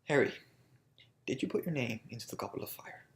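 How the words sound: It is said in a calm, restrained way.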